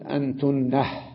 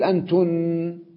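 First: The word ends with an added final h sound. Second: The word ends without a final h sound.

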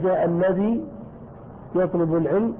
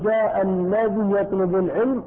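First: The word ends with a long ee vowel. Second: The word ends with a short i vowel. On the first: "لك أن تثبت الياء" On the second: "أو تكسر"

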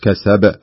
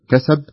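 First: The final b is released with a clear bounce. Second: The final b is weak and nearly unheard. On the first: The speaker calls it right. "بهذا الشكل كسب" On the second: The speaker calls it wrong. "ما تقول كسب يروح الحرف"

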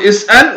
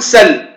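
First: The glottal stop is fully pronounced. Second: The glottal stop is dropped entirely. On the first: "اسأل تكون حققت الهمزة" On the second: "سل هنا حذفت الهمزة"

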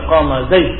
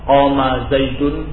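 First: The last word stops bare, without the ending. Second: The last word ends with the full -un ending. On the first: "ingin takfif, ingin ringan, sehingga dia mengatakan qama zaid, disukunkan" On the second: "bukan zaidun"

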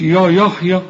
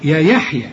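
First: The ya sound is heavy and emphatic. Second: The ya sound is light and thin. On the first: The speaker calls it wrong. "مش" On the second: The speaker calls it right. "وإحنا عارفين إن الياء في القرآن يا"

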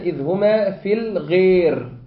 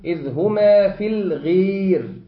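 First: The long vowel is halfway between a and ee. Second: The long vowel is bent close to ee. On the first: "بالتقليل أو الإمالة اللي هي التي هي بين بين" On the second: "قريبة من الياء"

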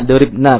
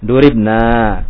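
First: The final vowel is short. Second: The final vowel is long. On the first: It refers to a group of women. "harus pendek harus berbeda ini" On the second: It refers to 'we'. "kalau panjang nanti nahnu ya"

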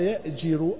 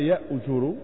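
First: The vowel after the j sound is i. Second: The vowel after the j sound is u. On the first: "بكسر الجيم" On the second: "وضمها"

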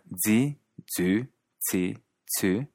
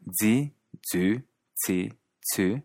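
First: The syllables have a Quebec French pronunciation. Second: The same.

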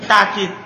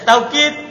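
First: The first syllable has a long 'a' vowel. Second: The first syllable has an 'aw' glide. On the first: "Wasalisa yang ketiga, takkid bil alif, pakai alif" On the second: "Yang pertama, tak taukid. Bilwawi, dengan pakai waw"

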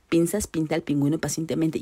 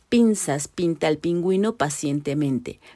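First: The phrase is said quickly. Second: The phrase is said slowly and carefully. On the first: "cada vez más rápido" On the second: "lento, lento"

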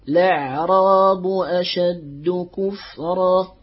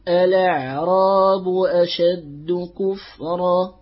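First: The first word starts directly with 'la'. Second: The first word starts with an 'a' vowel. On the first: The transferred vowel on the lam is followed. "ويجوز لك الاعتداد بالعارض وهو حركة اللام" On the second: The original form is followed. "يجوز لك أن تأتي بهمزة الوصل اعتدادا بالأصل"

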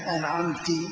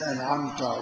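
First: The word ends with an i vowel. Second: The word ends with a u vowel. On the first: A female addressee bestowed the favor. "أو كسر أنعمت، خطاب للمؤنث" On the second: The speaker is the one who bestowed the favor. "بضم"

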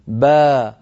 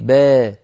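First: The long vowel is fully open 'a'. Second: The long vowel is tilted slightly toward 'e'. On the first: The speaker calls it right. "با هذا صواب" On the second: The speaker calls it wrong. "ولا نقول با، انظري با، هذا لا يصح"

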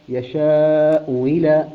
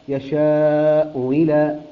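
No difference in how they are said.

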